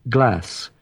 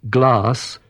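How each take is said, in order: The two takes are said the same way.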